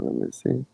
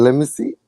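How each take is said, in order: First: Said in the usual way. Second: Higher, quoting himself; mock curious. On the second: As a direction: replay his own eager line.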